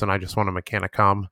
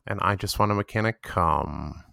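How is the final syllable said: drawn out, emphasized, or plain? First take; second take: plain; drawn out. First: The final syllable is said plainly, without emphasis. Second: The final syllable is stretched out long.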